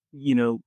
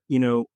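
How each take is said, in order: Both takes have the same delivery.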